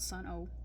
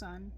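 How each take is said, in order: First: The name is said as two syllables. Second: The name is said as one syllable. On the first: The speaker calls it wrong. "not Sun-O" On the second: The speaker calls it right. "they're pronounced Sun"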